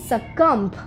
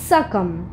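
First: A stop sound is heard after the final m. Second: The word ends cleanly on the m sound. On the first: The speaker calls it wrong. "সাকাম্প কিন্তু ভুল" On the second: The speaker calls it right. "বিটাকে বাদ দিয়ে বলতে হবে সাকাম"

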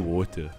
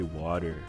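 First: It is said in a non-American accent. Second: It is said in an American accent. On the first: "I say water" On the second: "How do you Americans say it? ... But you guys say water"

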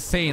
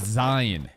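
First: The name is said as one syllable. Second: The name is said as two syllables. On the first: This is the official pronunciation. "it's pronounced like Zayn" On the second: This is the speaker's own preferred pronunciation. "I gotta call it Zion"

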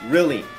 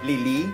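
First: The word begins with an R sound. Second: The word begins with an L sound. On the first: The speaker calls it right. "จะต้องออกเสียงเป็น" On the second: The speaker calls it wrong. "ตัว R กับตัว L เนี่ยชอบใช้แทนกันซึ่งมันจะผิดนะครับ"

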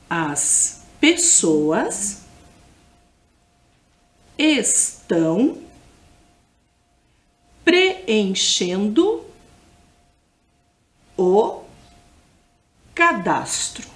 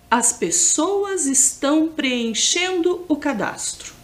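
First: The sentence is spoken very slowly. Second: The sentence is spoken at normal speed.

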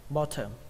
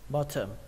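The two takes are said the same way.

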